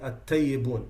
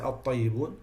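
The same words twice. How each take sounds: First: The first consonant is a plain light t. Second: The first consonant is heavy and emphatic. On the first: The speaker calls it wrong. "some people say الطيبون" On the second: The speaker calls it right. "They don't say الطيبون"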